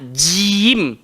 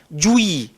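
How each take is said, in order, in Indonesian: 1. Bibir tetap tidak dibulatkan, tidak dimuncungkan. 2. Bibir dimuncungkan dan dibulatkan. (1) "Kita nak jim" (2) "Bila dia muncung, dia akan bawa bunyi juim"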